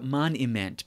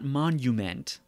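First: The middle syllable has an 'ih' vowel. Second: The middle syllable has the usual 'nyoo' vowel. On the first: It follows an old spelling that adds a mocking meaning. "but monument, because he spells it M-O-N-I-M-E-N-T" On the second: It is the modern form of the word. "not monument"

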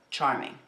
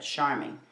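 First: The word begins with a sharp 'ch' sound. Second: The word begins with a soft 'sh' sound. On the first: The speaker calls it right. "instead of charming" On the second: The speaker calls it wrong. "that's what I had said"

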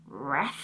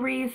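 First: The vowel is short, rhyming with breath. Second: The vowel is long, rhyming with beef. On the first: The speaker calls it wrong. "I always thought it was pronounced like, you know, breath. So I would say breath" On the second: The speaker calls it right. "So luckily it is not pronounced that way"

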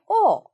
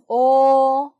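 First: The pitch falls sharply and quickly. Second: The pitch stays high and level. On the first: "사성 빠르게" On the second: "일성"

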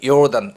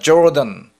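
First: The word begins with a Y sound. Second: The word begins with a J sound. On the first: This is how Jewish speakers pronounce it. "유대인들은 요단 이렇게 발음하죠" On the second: This is the English pronunciation. "영어로는"

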